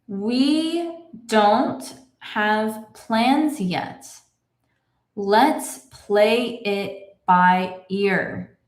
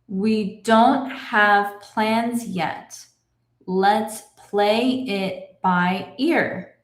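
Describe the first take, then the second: First: The sentence is read very slowly. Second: The sentence is read at a moderate pace. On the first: "Let's read this together slowly" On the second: "a little bit faster"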